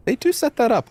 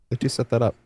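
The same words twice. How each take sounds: First: High mock-impressed. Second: Said in the usual way.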